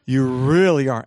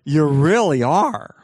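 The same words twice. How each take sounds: First: Loud, emphatic mock gushing; hammed-up self-praise; gushing self-admiration. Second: Slow, loud, drawn-out echo of praise; big, swooping mock affirmation; brain gushing agreement. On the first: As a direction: lean hard on "really", gushing at yourself. Acts out admiring self in mirror. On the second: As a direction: stretch "really are" wide in hammed-up agreement. Brain echoes the self-praise emphatically.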